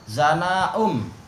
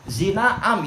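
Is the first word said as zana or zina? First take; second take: zana; zina. First: The words are read as zana um. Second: The words are read as zina am. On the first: The listeners cannot understand what is meant. The speaker calls it wrong. "Dia mengatakan apa? Zana um" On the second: Adultery has become widespread. The speaker calls it right. "Padahal yang betul adalah zina am"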